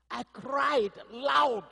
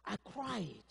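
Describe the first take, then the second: First: I cried loud, high, loud and very slow; emphatic. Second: Said in the usual way. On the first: Shown as a demonstration. Pastor telling congregation how he cried, emphatic. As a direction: stretch out loud with full force.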